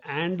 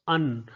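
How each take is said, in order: First: AND said in full with an open a and final d; full-vowel AND. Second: AND reduced to "un", no final d; weak-form AND. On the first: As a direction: give AND its strong, dictionary form. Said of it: "it is pronounced like and". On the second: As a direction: swallow AND down to a short "un". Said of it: "it is pronounced un rather than and". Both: Shown as a demonstration.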